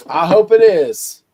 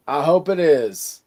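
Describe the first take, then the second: First: Emphatic hope. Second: Said in the usual way. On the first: Real, not acted. Repeats wish more emphatically.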